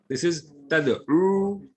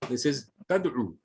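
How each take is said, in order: First: The final vowel is held for two counts. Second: The final vowel is cut short to one count. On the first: "two counts here" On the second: "a single count here"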